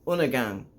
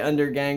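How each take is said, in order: First: It is said with a double N and no D. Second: It is said with a clear D and an R. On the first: This follows how the band says it. "it's like U N N" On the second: This is an easier American way of saying it. "I say undergang because I'm a dumb American"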